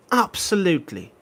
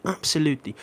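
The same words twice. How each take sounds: First: "absolutely" in a put-on British accent, pitched up. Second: Said in the usual way. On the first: Shown as a demonstration. Streamer to chat doing the British word, mock British accent. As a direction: say "absolutely" like a British football pundit. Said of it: "sometimes I'm gonna say it absolutely". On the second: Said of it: "hear me say absolutely with a British accent".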